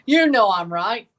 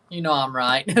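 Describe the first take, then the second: First: Higher, louder, slower through a laugh; teasing laughing insistence. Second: Said in the usual way. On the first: Real, not acted. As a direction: laugh it out, slow and loud. Repeats teasing claim, laughing.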